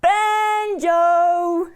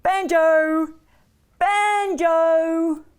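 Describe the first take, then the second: First: Long, high, loud holler; belted-out singsong dog call; extra-loud call. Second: Long, loud singsong call; drawn-out storyteller's call; calling the dog. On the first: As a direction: holler for a dog hard of hearing. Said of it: "had to call out extra loud". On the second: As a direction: call a dog across the yard. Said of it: "So Lucy called the dog". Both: A narrator's reading.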